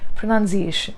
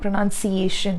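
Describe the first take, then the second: First: It has a slight z-like sound in the middle. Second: It is said flat, without a z-like sound. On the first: The speaker calls it right. "that slight z sound is there" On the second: The speaker calls it wrong. "It's not pronunciation. You can't go flat on it"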